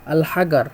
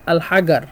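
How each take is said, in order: First: It is said in Egyptian Arabic pronunciation. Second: It is said in Egyptian Arabic pronunciation.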